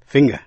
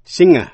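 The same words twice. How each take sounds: First: Finger said FING-ger with a hard g. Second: Singer said SING-er, ng with no g, loud. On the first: Teacher contrasts finger for listeners. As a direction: land the g in finger. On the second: Teacher contrasts Singer for listeners. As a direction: punch Singer, ng with no g. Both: Shown as a demonstration. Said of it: "Xin quý vị nghe lại và so sánh".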